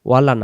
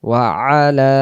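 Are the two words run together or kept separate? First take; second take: run together; separate. First: The two words are run together. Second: The two words are kept separate. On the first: The speaker calls it wrong. "ওয়ালা বলতে নাই, ওয়ালা না" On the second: The speaker calls it right. "ওয়া আলা ওয়া আলা"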